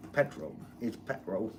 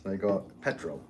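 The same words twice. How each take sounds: First: Half-hearted Cockney British impression; Cockney British accent. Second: Said in the usual way. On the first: Shown as a demonstration. Telling viewers how the British say it, light Cockney British accent. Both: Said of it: "My British accent's more of a Cockney sound".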